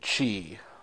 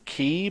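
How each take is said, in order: First: The word begins with a ch sound. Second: The word begins with a k sound. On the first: This is how it is said in the Japanese versions. "in the Japanese versions, they pronounce it chi" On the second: This is how the speaker says it, following the spelling. "it's spelled K-I, so I say ki"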